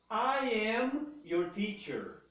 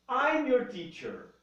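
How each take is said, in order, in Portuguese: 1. Ambas as palavras são ditas completas e separadas. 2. As duas palavras são unidas em uma única sílaba. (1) "I am" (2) "Eu posso falar I'm"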